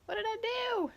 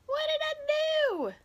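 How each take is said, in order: First: Said in the usual way. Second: High, slow, drawn-out what did I do; hammed-up bewildered whine, higher and slower; mock dismay. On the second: After the camera slips, she asks viewers in high, slow mock dismay.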